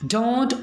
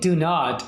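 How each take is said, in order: First: It is said as one short contracted word. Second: It is said as two full separate words. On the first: The speaker calls it right. "बल्कि आप कैसे बोलेंगे" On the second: The speaker calls it wrong. "यहाँ पर अब आप ये नहीं कहेंगे do not"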